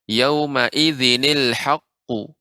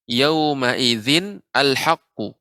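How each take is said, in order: First: The words are joined with a linking ni sound. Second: The words are read separately without linking.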